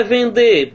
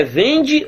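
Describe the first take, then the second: First: Vender stressed on a closed DÊ; stress on final syllable. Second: Vende stressed on VEN; stress on first syllable. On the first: Teacher asking which reading fits, vender stressed on the end. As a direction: say vender as ven-DÊ, last syllable strong. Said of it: "sílaba tônica aqui". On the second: Teacher asking which reading fits, vende stressed on VEN. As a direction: say vende as VEN-dji, ending weak. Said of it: "a pronúncia toda é vendê-las". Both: Shown as a demonstration.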